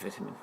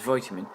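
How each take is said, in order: First: It is said with a non-American pronunciation. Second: It is said with an American pronunciation. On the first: The speaker calls it right. "I prefer the pronunciation vitamin" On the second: The speaker calls it wrong. "I hate hearing the word vitamin pronounced as vitamin"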